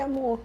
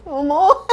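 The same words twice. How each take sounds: First: Soft, small retold endearment; acted hesitant address. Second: Higher, louder retold endearment; acted insistent address. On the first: Woman about to tell partner her news, acted hesitancy. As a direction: begin timidly, as if unable to tell. First tearful answer to partner. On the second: Woman pressed by partner for her news, acted insistence. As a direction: push the word out, mock overwhelmed.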